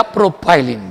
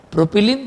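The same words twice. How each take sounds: First: प्रोपाइलिन with "pie" in the middle; alternative pronunciation. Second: प्रोपिलीन with "pi" as in pin; short-i pronunciation. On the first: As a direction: pronounce प्रोपाइलिन as pro-pie-lin. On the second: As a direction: pronounce प्रोपिलीन as pro-pi-leen. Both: Shown as a demonstration. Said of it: "आपको जो चाहिए वो आप बोलो".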